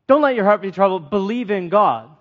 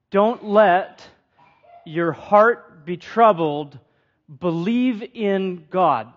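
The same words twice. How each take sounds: First: Brisk, matter-of-fact pass through the line; the preacher rereads the verse to explain it, quick and plain; quick re-reading. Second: Slow, weighty, every word set apart; the preacher reads Jesus's words to the congregation, slow and deliberate; slow emphatic reading. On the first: Run through it fast as a reminder. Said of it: "another way of saying is". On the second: Lean on "Don't" and let each word land slowly. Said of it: "Kind of peculiar that he says that". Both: Shown as a demonstration.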